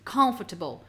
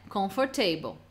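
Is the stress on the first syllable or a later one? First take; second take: first; later. First: The stress falls on the first syllable. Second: The stress falls on a later syllable. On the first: The speaker calls it right. "a sílaba forte vem no início" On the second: The speaker calls it wrong. "Não é comfortable"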